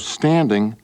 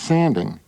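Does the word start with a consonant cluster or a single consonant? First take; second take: cluster; single consonant. First: The word starts with the cluster st. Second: The word starts with a single s sound.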